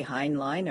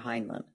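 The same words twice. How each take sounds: First: "Heinlein" with second syllable like "line"; Heinlein rhyming LINE. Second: "Heinlein" with reduced second syllable, "lun"; Heinlein with weak ending. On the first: Host offers co-host one option, "Heinlein" as HINE-line. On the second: Host offers co-host other option, "Heinlein" as HINE-lun. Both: Shown as a demonstration. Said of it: "do you say Heinlein or Heinlein".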